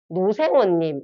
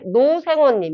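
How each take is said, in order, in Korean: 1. 음절이 서로 뒤섞여 뭉개진 단어가 됩니다. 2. 단어의 모든 음절이 또렷하게 발음됩니다.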